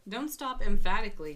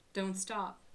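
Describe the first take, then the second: First: "Don't stop emphatically" much louder and punched; loud, insistent card reading; emphatic. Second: Said in the usual way. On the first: Shown as a demonstration. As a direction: belt "Don't stop" out like a command.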